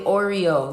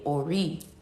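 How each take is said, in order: First: The word is said with three syllables. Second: The word is said with two syllables. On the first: It treats it like a nickname and shows disrespect. The speaker calls it wrong. "No, don't say Oreo" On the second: It shows proper respect. The speaker calls it right. "You have to call it Ori"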